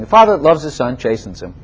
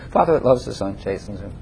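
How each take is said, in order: First: Said in the usual way. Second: Dropped to a soft, low murmur; hushed third repeat of the verse. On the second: Shown as a demonstration. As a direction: let it fall away quietly. Repeated, much softer third time.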